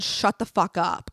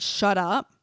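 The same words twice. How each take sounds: First: "Shut the fuck up" said slowly, each word spaced; slow full version. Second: Said in the usual way. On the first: Retold or imitated. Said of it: "I don't know that I said". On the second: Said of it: "I thought I just said".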